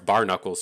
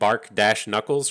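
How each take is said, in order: First: The first part is said as bar, without k. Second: A k sound ends the first part, bark. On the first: The name is read as spelled with one k. "I'm just going by the way I see it" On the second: The name refers to tree bark on the knuckles. "it should be like bark dash knuckles"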